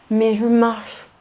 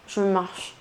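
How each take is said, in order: First: « marche » appuyé, plus fort; accent sur marche. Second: Said in the usual way. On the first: Retold or imitated. (« marche » martelé avec insistance) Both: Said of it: "une quantité de fois".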